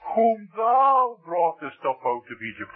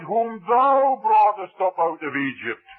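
First: The stress is on "thou". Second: The stress is not on "thou".

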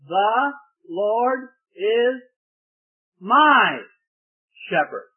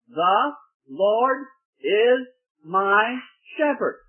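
First: The stress is on the word my. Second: Each word gets equal weight, no special stress.

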